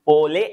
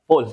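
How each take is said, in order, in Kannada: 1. ಪದದ ಕೊನೆಯಲ್ಲಿ ಹೆಚ್ಚುವರಿ ಸ್ವರ ಉಚ್ಚಾರಾಂಶ ಇದೆ. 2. ಪದವು l ಧ್ವನಿಯೊಂದಿಗೆ ಕೊನೆಗೊಳ್ಳುತ್ತದೆ. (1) "ಪೋಲೆ ಅಲ್ಲ" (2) "ಇಟ್ಸ್ ಪ್ರೊನೌನ್ಸ್ ಆಸ್ ಪೋಲ್"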